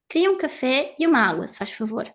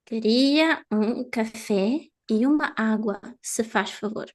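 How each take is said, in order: First: The sentence is spoken quickly. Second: The sentence is spoken slowly. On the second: "This was slow"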